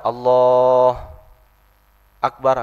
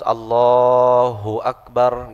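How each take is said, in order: First: There is a pause between the two words. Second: The two words run together without a pause. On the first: The speaker calls it wrong. "tidak ada jeda, Allah akbar nggak boleh tuh" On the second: The speaker calls it right. "udah harus Allahu Akbar gitu. Namanya muwalat"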